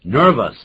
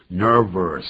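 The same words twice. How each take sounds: First: Said in the usual way. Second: "nervous" with a wrongly added R in its second syllable; mispronounced second syllable. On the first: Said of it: "可不要再说nervous". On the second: Shown as a demonstration. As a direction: say "nervous" like "nur-vers". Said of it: "后头可不要再说".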